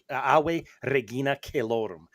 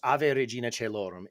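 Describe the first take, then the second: First: It uses the classical Latin pronunciation. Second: It uses the Church Latin pronunciation. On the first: The speaker calls it wrong. "With the classical Latin, it would be" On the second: The speaker calls it right. "that's how it would be said with the Church Latin"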